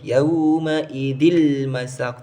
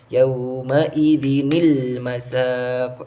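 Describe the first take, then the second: First: It is said without the small linking n sound. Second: It is said with a small linking n sound. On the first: The speaker calls it wrong. "tidak boleh" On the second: The speaker calls it right. "harus dibaca"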